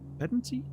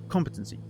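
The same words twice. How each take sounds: First: The stress is not on the first syllable. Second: The stress is on the first syllable. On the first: The speaker calls it wrong. "that sounds wrong" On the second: The speaker calls it right. "Stress on the first syllable"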